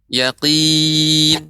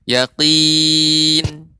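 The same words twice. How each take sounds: The two takes are said the same way.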